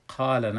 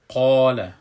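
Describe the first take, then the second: First: The long vowel sounds thin and light. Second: The long vowel sounds full and heavy. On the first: The speaker calls it wrong. "قال نمیگیم" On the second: The speaker calls it right. "الف پر خوانده میشه"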